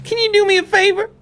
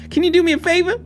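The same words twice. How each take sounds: First: High Susie Rabbit voice. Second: Put-on pitched up bunny girl pleading; high Susie Rabbit voice again. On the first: Acted. Susie Rabbit asking the detective a favor, high pitched. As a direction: voice up high, chirpy bunny girl. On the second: Susie Rabbit pressing the detective again, high pitched.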